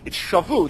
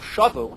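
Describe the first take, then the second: First: The stress is on the last syllable. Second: The stress is on the first syllable. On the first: They took captives. "the accent is milarah. It's on the last syllable" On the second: They went back. "if the accent were on the first syllable"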